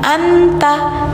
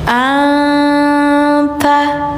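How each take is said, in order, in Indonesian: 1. n diucapkan dengan jelas, lidah terangkat. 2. n disamarkan dengan dengungan hidung. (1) "Jadi bukan anta" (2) "tapi anta"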